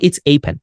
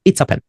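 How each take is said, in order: First: "a" in "It's a pen" as the letter name ay; wrong strong article. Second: "a" in "It's a pen" as a short uh; correct weak article. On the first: Teacher shows what not to say, "a" as ay. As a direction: give "a" a full AY sound. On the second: Teacher models the right way, "a" as uh. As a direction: run "It's a" together with a weak uh. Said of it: "এই ওয়ার্ডের এটার উচ্চারণ হচ্ছে আ". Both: Shown as a demonstration.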